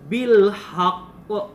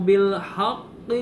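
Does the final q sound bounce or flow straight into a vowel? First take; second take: bounces; flows. First: The final q bounces with a slight echo vowel. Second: The q flows straight into the following vowel. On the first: The reader stops at this word. "kalau kita berhenti, maka huruf qafnya memantul" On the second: The reader continues without stopping. "Tapi kalau lanjut"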